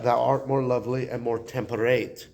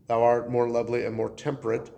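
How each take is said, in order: First: "temperate" ending in a long "ate", to rhyme with date; original pronunciation. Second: Said in the usual way. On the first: Shown as a demonstration. Teacher showing students how the sonnet's words sounded back then, "temperate" in original pronunciation, ending "-ate". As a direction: say "temperate" as temper-ATE, last syllable like "eight". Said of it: "That would be the original pronunciation". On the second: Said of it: "Those words don't exactly rhyme".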